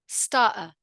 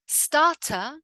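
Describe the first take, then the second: First: "starter" as "stah'ah"; throat catch for the second T in "starter"; glottal T. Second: "Starter" with crisp Ts; careful "stah-tah"; full T. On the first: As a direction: cut the middle T in "starter". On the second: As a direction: sound the middle T fully in "Starter". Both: Shown as a demonstration. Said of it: "in the two different ways".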